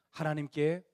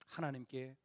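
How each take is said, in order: First: "하나님께" at normal level with a rise; rising repeat. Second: "하나님께" low and soft, falling away; hushed. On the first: Preacher repeating the assurance, "하나님께" rising. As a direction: lift "하나님께" up at the end. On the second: Preacher softly assuring the young, "하나님께" hushed. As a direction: breathe "하나님께" quietly. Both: Shown as a demonstration.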